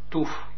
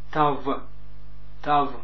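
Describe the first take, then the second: First: The word ends with an f sound. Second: The word ends with a v sound. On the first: "met een klank F aan het einde" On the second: "met een V aan het einde"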